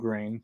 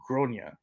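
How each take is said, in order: First: The name is said as one syllable. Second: The name is said as two syllables. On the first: "the way the pronunciation was butchered" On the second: "in Ireland they typically pronounce it"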